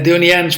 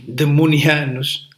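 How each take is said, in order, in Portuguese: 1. Nenhum som m segue a primeira sílaba. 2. Um som m segue a primeira sílaba. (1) "Deonianos por causa do nome do nosso fundador" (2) "Há quem se engane na pronúncia"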